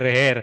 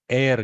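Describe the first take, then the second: First: The word starts with an h sound. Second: The word starts with no h sound. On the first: The speaker calls it wrong. "I always read it in my childhood as heir" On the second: The speaker calls it right. "We are supposed to, supposed to say heir"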